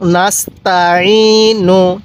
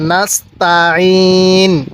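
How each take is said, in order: First: The word ends with a short u vowel. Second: The word ends on the consonant n. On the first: The reading continues without stopping. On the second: The reader stops at this word.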